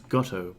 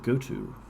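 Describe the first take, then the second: First: It is said as one word rhyming with 'grotto'. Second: It is said as two words, 'go' and 'to'.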